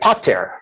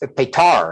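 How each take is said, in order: First: The stress is on the first syllable. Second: The stress is on the second syllable.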